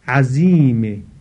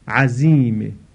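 Both takes have the same delivery.

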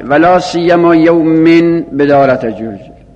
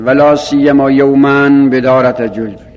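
First: The word after la siyyama ends in -in. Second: The word after la siyyama ends in -an. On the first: The word is read in the genitive case. "مستثنای بلا سیما به جرم خونده شده" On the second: The word is read in the accusative case. "مستثنای بلا سیما به نصب خونده شده"

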